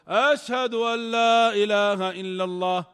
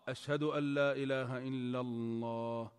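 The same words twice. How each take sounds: First: The phrase is said in a raised, loud voice. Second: The phrase is said in a low, quiet voice. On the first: "إعادة الشهادتين بصوت مرتفع" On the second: "بعد قولهما بصوت منخفض"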